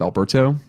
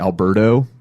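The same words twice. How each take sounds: First: The t is sounded as a clear t. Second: The t is sounded like a d, New Orleans style.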